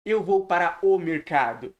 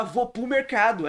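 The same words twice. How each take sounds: First: "Eu vou para o mercado" with every word complete; pronúncia certinha. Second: "Vou pro mercado" run together, "para o" shrunk to "pro"; casual swallowed words in "Vou pro mercado"; fala do dia a dia. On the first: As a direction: textbook "Eu vou para o mercado", nothing swallowed. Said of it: "ao invés de". ("Eu vou para o mercado" palavra por palavra) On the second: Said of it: "A gente fala". ("Vou pro mercado" coloquial, tudo junto) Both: Shown as a demonstration.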